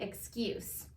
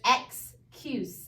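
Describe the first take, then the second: First: "excuse" run together as "iks-KYOOS", softer; blended, Southern accent. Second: "excuse" very slow, split "ex... cuse" with a full "eh"; broken apart. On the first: Teacher shows how we say it, blended Southern accent. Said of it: "blend it the way we say with our Southern accent". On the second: Teacher shows students the hard word, broken apart. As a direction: separate "excuse" into two stressed syllables, slowly. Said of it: "we don't say it exactly that way". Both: Shown as a demonstration.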